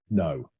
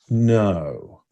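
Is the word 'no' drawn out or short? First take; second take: short; drawn out. First: The word is short and emphatic. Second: The word is stretched out and elongated. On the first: It is a firm, genuine denial. "if I'm giving an emphatic no" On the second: The speaker is ramping up to a prepared strategy. "So that elongation of it"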